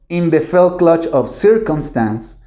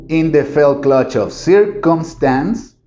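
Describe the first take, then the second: No difference in how they are said.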